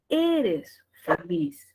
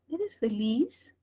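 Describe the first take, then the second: First: The voice falls at the end. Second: The voice rises at the end.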